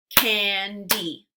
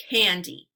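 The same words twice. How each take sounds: First: Candy as "can... dee", gap between; candy slowly, syllable by syllable; split into syllables. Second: Said in the usual way. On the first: Shown as a demonstration. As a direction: break candy into two separate parts. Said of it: "give you two parts to a word". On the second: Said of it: "swipe to say the whole word".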